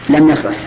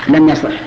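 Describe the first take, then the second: Both takes have the same delivery.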